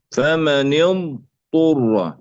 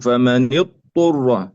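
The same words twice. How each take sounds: First: فمن اضطر very slowly, ض stretched before ط; slow اضطر, ض and ط kept apart; separate lengthened dad. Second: فمن اضطر with ض absorbed into ط; اضطر without a sounded ض; wrongly merged dad. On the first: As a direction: hold the ض of اضطر, then release a clean ط. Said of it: "وهكذا". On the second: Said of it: "لا نقول". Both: Shown as a demonstration.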